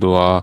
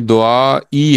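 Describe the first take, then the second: First: The word ends on a plain 'a' vowel. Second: The word ends with an added 'ee' vowel. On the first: The reading stops here, so the ending is dropped. "इसको दुआ ही पढ़ते हैं क्योंकि यहाँ पे अ, रुकते हैं" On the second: This is the full written form, meaning my prayer. "ये दुआ ई है"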